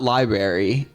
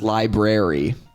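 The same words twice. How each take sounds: First: The word is pronounced in a casual, reduced way. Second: The word is pronounced carefully, with every sound. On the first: This is how the children said it. The speaker calls it wrong. "it was not library" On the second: This is how the teacher demanded it be said. The speaker calls it right. "it was library"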